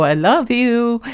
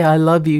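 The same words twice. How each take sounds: First: Slow, pitched-up tender retelling; retold I love you. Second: Said in the usual way. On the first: Owner retelling her words to her cat, slow and high. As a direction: stretch it out high, lightly sweet. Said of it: "And then I go". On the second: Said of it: "Because I didn't say".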